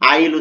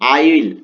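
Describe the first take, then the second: First: The words are contracted into one short syllable. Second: Both words are said in full, separately. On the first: "এটাকে short ফরম্যাটে নিয়ে এসে আইল উচ্চারণ হবে" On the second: "এখানে দেখো আই উইল আছে"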